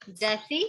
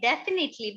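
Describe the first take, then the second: First: "Definitely" split in two, lower, with a pause; syllable-by-syllable dictation. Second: Said in the usual way. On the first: Shown as a demonstration. Repeats the word broken into parts.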